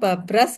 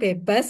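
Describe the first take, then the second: First: The first vowel is an a sound. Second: The second r sound is dropped. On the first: "Kadang babras" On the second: "kadang bebas gitu ya"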